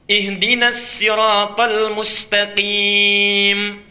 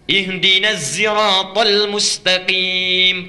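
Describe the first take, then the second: First: Sirat begins with a plain sin sound. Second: Sirat begins with a zai sound.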